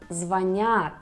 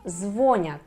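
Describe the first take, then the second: First: The stress is on the second syllable. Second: The stress is on the first syllable. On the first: The speaker calls it right. "instead of" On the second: The speaker calls it wrong. "A very common mistake among Russian native speakers"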